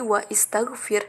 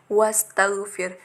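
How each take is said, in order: First: A glottal stop separates wa from istaghfir. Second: Wa runs straight into staghfir without a stop. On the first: The speaker calls it wrong. "itu nggak bisa menjadi wa istaghfir" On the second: The speaker calls it right. "tapi tetap menjadi wastaghfir"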